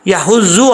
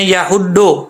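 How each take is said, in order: First: The middle consonant sounds like a Z. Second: The middle consonant sounds like a plain D. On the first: "ना ही इसको ज़ौद पढ़ना है" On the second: "दुआद पढ़ते हैं"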